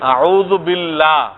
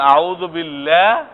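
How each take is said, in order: First: The vowel is said straight, not bent. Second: The vowel is said bent, not straight. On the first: The speaker calls it right. "লাটা হলো সোজা" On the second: The speaker calls it wrong. "এটা হলো বাঁকা"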